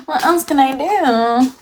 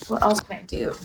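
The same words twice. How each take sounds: First: Gasp, then high, slow theatrical wail; mock lament. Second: Softer, downcast question; subdued question. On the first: Streamer stuck with bad bathroom lighting, mock despair. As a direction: wail it dramatically, drawn out and high. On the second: Real, not acted. Streamer resigned to bad bathroom lighting, quiet. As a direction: ask it quietly, falling away. Same question, then repeated dramatically.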